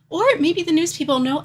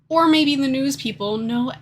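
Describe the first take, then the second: First: It is said in a switched character voice. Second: It is said in the previous, unchanged voice. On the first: The speaker calls it right. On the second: The speaker calls it wrong.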